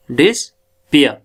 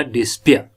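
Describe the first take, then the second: First: "डिस्पियर" slowly as dis, pause, pia; split into syllables. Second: Said in the usual way. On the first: Shown as a demonstration. Teacher showing two syllables, "डिस्पियर" split slowly. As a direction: break "डिस्पियर" in two with a clear gap. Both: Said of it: "दूसरा syllable इसका डिस्पिया".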